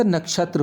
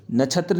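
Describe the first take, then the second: First: नक्षत्र as "nak-shatra"; correct form demo. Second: नक्षत्र said as "na-chhatra"; wrong form demo. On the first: Teacher correcting children, नक्षत्र as nak-shatra. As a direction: sound the full ksh in नक्षत्र. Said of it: "नक्षत्र होता है". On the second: Teacher showing the error, नक्षत्र as na-chhatra. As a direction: put chh in place of ksh in नक्षत्र. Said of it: "नक्षत्र नहीं होता". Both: Shown as a demonstration.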